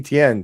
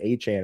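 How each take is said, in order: First: The surname is said as Etienne. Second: The surname is said as Achan. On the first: This is the old way of saying the name. The speaker calls it wrong. "formerly Etienne" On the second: This is how the person says his own name. The speaker calls it right. "he pronounces his name Achan"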